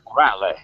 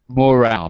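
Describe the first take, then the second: First: A final vowel is pronounced after the L. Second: The word ends on the L, without a vowel. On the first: The speaker calls it wrong. "In Italian, it's morale" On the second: The speaker calls it right. "in English, you don't say the final e"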